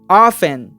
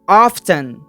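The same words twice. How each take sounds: First: The T sound is left out. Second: The T sound is clearly pronounced. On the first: "Isso aqui é sem o T" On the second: "Com o T"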